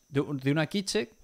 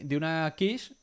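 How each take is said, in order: First: "quiche" read as Spanish "kiche", with ch and a final e; Spanish-style quiche. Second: "quiche" said the French way, like "kish"; French-style quiche. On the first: Correcting herself on the dish name, "quiche" as "kiche". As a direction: spell out "quiche" as "ki-che". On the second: Unsure how to say the dish, "quiche" as "kish". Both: Shown as a demonstration. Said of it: "¿Cómo se dice en español?".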